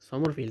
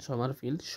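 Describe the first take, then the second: First: The first vowel is a rounded o sound. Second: The first vowel is an open a sound. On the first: The speaker calls it wrong. "সমরফিল্ড না" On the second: The speaker calls it right. "উচ্চারণ হবে সমারফিল্ড"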